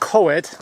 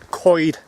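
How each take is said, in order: First: The word does not sound like 'coyd'. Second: The word sounds like 'coyd'. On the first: The speaker calls it wrong. "It's not pronounced Coed" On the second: The speaker calls it right. "It's pronounced as if you're saying C O Y D"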